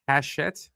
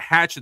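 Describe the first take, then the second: First: It is said with an sh sound. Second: It is said like the word hatchet. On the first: The speaker calls it right. "apparently the pronunciation is Hachette" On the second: The speaker calls it wrong. "I've been calling it Hatchet this whole time"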